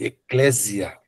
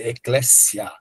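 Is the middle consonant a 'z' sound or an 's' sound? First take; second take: z sound; s sound. First: The middle consonant is a voiced z sound. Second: The middle consonant is a voiceless s sound. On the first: The speaker calls it wrong. "Você poderia ler eclésia" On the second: The speaker calls it right. "ele tem som de dois S"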